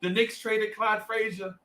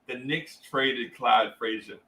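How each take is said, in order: First: High, mock-tearful retelling; hammed-up higher plaintive voice; about to cry. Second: Slow, low, heavy delivery; understated retold sorrow; retold grave news. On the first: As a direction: imitate a kid on the verge of tears, pitched up. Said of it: "be about to cry". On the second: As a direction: break bad news slowly and low. Breaking bad news while crying.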